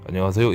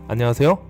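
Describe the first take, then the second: First: The greeting is said in a low, flat pitch. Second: The greeting is said in a raised, bright pitch. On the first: The speaker calls it wrong. "이게 아니고" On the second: The speaker calls it right. "좀 톤을 올려서"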